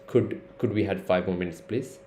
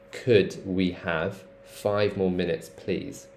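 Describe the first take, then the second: First: The vowels are clipped short and quick. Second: The vowels are drawn out and lengthened. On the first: The speaker calls it wrong. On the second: The speaker calls it right. "elongated to please"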